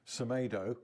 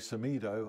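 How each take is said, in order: First: The middle vowel sounds like 'eh'. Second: The middle vowel sounds like 'ee'. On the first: The speaker calls it wrong. "Some say Semedo" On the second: The speaker calls it right. "some say Semido"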